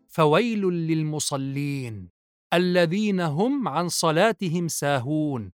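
There is a pause after للمصلين.

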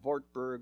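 It is pronounced with a German accent.

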